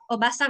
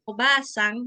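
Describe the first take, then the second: First: The vowel after b is kept short. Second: The vowel after b is held long. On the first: It means aunt. "yang dibaca pendek" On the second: It means grandmother. "dibaca panjang gitu"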